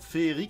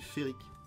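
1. Le mot se prononce avec un son 'é' doublé. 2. Le mot se prononce avec un seul son 'fée'. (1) "ça se dit pas" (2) "Parce qu'il n'y a pas de « et », c'est « féerique ». Comme une fée"

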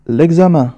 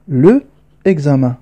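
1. يُحذف حرف العلة في أداة التعريف ويُوصل بالكلمة. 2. يُحتفظ بحرف العلة في أداة التعريف قبل الاسم. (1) "نحذف E ونضع apostrophe. إذن نقرأ الكلمة هكذا" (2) "في الأصل كانت الكلمة هكذا"

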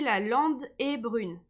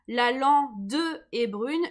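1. Le e de lande est muet devant est. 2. Le e de lande se prononce devant est. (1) "je dis" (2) "Je dis pas"

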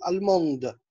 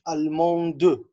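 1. الكلمة تنتهي بالـ d، من غير حرف علة. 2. يُنطق حرف علة بعد الـ d الأخيرة. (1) "بنديله صوت السكون كده" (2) "يعني ما بنقولش الموند"

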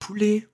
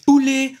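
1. Le mot est dit doucement. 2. Le mot est dit un peu plus fort. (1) "le pote il dit poulet" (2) "ensuite poulet"

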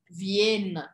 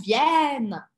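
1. A vogal antes do n é fechada. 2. A vogal antes do n é aberta. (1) "eu não vou falar Viena" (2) "o som da vogal anterior é um som aberto"

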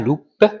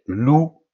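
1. Le mot finit par un son p audible. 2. Le mot finit sur la voyelle, pas de son p. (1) "On ne dit pas loupe" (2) "mais loup"

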